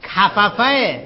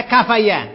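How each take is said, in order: First: کففه ending in fa-fa, firm and raised; doubled-f pronunciation. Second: کفیه ending in fa-ya, raised and loud; rejected pronunciation. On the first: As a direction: say کففه with two separate f syllables, ka-fa-fa. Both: Shown as a demonstration. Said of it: "نه کفیه".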